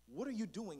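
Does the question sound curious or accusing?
curious. It sounds like a curious, casual question.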